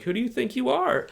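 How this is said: It sounds meek and fearful.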